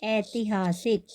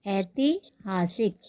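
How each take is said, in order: First: ऐतिहासिक slowly, long ऐ; slow model word. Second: ऐतिहासिक slower still, falling; slow repeat. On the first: Teacher models ऐतिहासिक slowly for the class. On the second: Teacher repeats ऐतिहासिक so students can copy. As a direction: repeat ऐतिहासिक slowly and settle it. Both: Shown as a demonstration. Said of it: "इतिहास का क्या होगा?".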